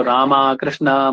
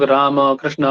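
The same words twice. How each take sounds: First: "रामा, कृष्णा" with a long aa ending each name; anglicised final vowel. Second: Said in the usual way. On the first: Shown as a demonstration. Teacher showing students English-based spellings, "रामा, कृष्णा" ending in long aa. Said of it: "अंग्रेजी में उनको". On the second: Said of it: "Hindi में हम लोग".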